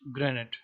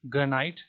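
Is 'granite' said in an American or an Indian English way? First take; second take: American; Indian. First: It is said with an American or British pronunciation. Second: It is said with an Indian English pronunciation. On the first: "Americans and Britishers call it granite" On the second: "in Indian English you will call it granite"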